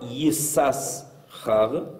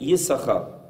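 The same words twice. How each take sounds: First: The name is said with every written letter sounded. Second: The name is said with one letter left out. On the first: The name is said the way it is written. The speaker calls it wrong. "on ne va pas prononcer Yissachar" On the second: The name is said the accepted way, not as written. The speaker calls it right. "on va dire Yissachar, comme si on sautait une des lettres"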